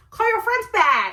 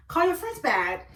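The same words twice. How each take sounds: First: Loud, high, insistent command; acting out a raised-voice demand; insistent order. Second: Said in the usual way. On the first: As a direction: order him sharply, pitch jumping up. Acted order, repeated more forcefully.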